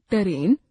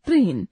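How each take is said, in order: First: ट्रेन said as टरेन with a vowel between t and r; wrong pronunciation. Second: Said in the usual way. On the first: Shown as a demonstration. Teacher demonstrating the error to the class. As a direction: open up the ट्र cluster in ट्रेन: टरेन. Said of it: "अशुद्ध उच्चारण". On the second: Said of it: "शुद्ध उच्चारण".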